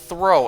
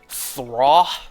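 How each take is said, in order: First: The vowel sounds like 'oh', as in 'throw'. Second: The vowel sounds like 'aw', as in 'thraw'. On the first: This is the official pronunciation. "their pronunciation is throw, as in like throwing something" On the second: This is how it was said in childhood. "as a kid, I used to pronounce Throw's name as Thraw"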